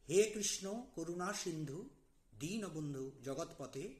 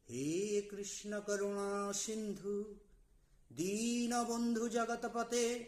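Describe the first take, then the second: First: It is recited plainly, without special feeling. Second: It is recited with earnest, longing devotion. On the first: "প্রথমে মন্ত্রটি বলছি" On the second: "প্রকৃতভাবে আমরা কিভাবে আকুতি নিয়ে বলবো"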